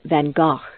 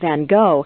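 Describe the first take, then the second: First: The name has its native, original pronunciation. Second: The name has the common anglicized pronunciation. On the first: This is the name's true pronunciation. The speaker calls it right. "the true pronunciation of his name is Van Gogh" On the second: This is how most people say the name. The speaker calls it wrong. "most people refer to him as Van Gogh"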